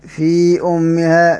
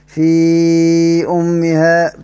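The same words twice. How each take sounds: First: The vowel before the glottal stop is short. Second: The vowel before the glottal stop is medium. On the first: "لمن يقرأ بالكسر" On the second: "توسط"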